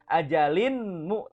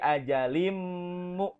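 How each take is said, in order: First: The n sound is kept before the m. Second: The n sound merges into the m. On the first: The speaker calls it wrong. "bukan ajalinmu" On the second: The speaker calls it right. "dimasukkan tanwinnya ke dalam huruf mim"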